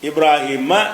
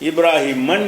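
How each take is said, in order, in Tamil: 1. சொல் வெறும் a உயிரெழுத்தில் முடிகிறது. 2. சொல் கூடுதலான n ஒலியுடன் முடிகிறது. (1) "இப்ராஹிம என்று தான் சொல்லணுமே" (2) "இப்ராஹிமன் என்று சொல்லக்கூடாது"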